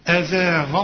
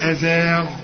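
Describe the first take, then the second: First: The word ends on a short a vowel. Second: The word ends on a bare consonant. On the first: "عند الوصل الغين مفتوح" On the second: "إذا وقفت أزاغ"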